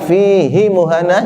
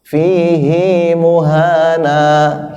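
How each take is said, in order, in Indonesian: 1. Vokal pada suku kata kedua itu pendek. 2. Vokal pada suku kata kedua itu panjang. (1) "hinya pendek, itu tidak bisa" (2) "hinya panjang"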